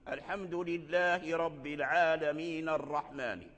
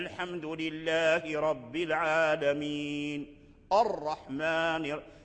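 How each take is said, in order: First: The last two words run together without pause. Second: A pause comes before the last word. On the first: "إذا أدرجنا العالمين مع الرحمن ذهبت همزة الوصل" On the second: "لو وقفنا على العالمين"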